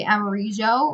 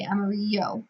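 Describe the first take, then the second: First: "amarillo" with the double L as a zh sound. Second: "amarillo" with the double L as a Y sound. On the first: Teacher showing one Spanish way to say amarillo. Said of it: "you can say amarillo". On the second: Teacher showing the other Spanish way to say amarillo. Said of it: "or you can say". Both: Shown as a demonstration.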